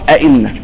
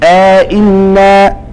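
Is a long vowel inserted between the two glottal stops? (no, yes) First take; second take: no; yes. First: The two glottal stops follow with no inserted vowel. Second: A long vowel separates the two glottal stops. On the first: "وعدم إدخال" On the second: "بإدخال"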